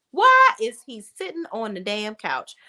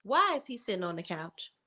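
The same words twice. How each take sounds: First: Outraged disbelief. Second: Stunned quiet disbelief. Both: Real, not acted.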